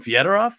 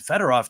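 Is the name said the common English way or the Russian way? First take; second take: Russian; common English. First: The name is said the Russian way. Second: The name is said the common English way. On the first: This is the proper native pronunciation. "that's the proper Russian pronunciation" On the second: This is what everyone calls him. "it's Fedorov to everybody"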